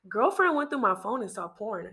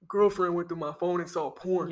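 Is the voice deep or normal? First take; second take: normal; deep. First: It is read in a normal voice. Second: It is read in a deep voice.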